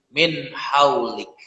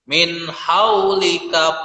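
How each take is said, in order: First: It ends on a stopped consonant. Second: It ends in a vowel and runs on. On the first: The reader stops at this point. "kalau dia waqafkan maka kapnya harus disukunkan" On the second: The reading continues without stopping. "Boleh dibaca min haulika tetapi tidak boleh waqaf di situ. Artinya harus maju"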